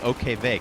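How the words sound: The last letter is said as German 'vay'.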